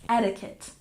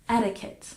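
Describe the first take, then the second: The two takes are said the same way.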